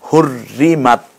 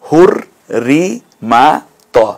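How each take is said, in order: First: The word is said smoothly as one unit. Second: The word is broken into separate syllables.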